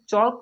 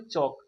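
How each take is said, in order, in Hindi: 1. K से पहले L की ध्वनि सुनाई देती है। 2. K से पहले L की ध्वनि सुनाई नहीं देती। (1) "चौक नहीं पढ़ेंगे" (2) "चौक पढ़ेंगे"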